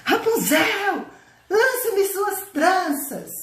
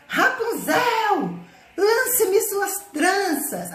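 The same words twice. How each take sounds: First: Slow, high, drawn-out imitation of the witch's call; prince imitating witch. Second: Slow, high, drawn-out call up the tower; witch calling up. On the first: Prince mimics the witch at the tower foot, slow high call. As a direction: fake the witch's call to fool her. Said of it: "Imitou lá a voz da bruxa". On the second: Acted. Witch calling Rapunzel at the foot of the tower, slow and high. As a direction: stretch it out like a witch calling from below.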